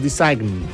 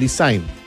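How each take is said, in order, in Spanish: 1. Se oye un sonido g en la palabra. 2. No se oye ningún sonido g en la palabra. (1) "no es Design" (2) "lo mismo que Design"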